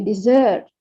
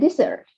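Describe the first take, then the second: First: The stress is on the second syllable. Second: The stress is on the first syllable. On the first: It means abandoning someone. "pronounce the same as uh, what's dessert" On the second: It names a dry sandy place. "when it is noun, sometimes we say it the first syllable"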